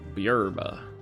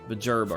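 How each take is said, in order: First: The middle consonant is a Y sound. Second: The middle consonant is a J sound. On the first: "Should I be saying Buyerba?" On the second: "The only J not turned into a Y in this game"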